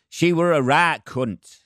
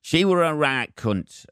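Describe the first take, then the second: First: Put-on slow, high Leeds accent with a blunt fall; imitating a Leeds woman in the audience. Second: Put-on slow, high Leeds accent repeated; imitating a Leeds woman's verdict. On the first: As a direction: drawl it out like a Leeds local. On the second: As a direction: say it again in broad Leeds. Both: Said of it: "she said in a fucking Leeds accent".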